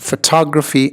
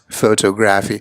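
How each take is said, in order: First: The stress is on the second syllable. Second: The stress is not on the second syllable. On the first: The speaker calls it right. "it's really here on the second syllable where you want to feel that thud" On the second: The speaker calls it wrong. "what you don't want to be saying"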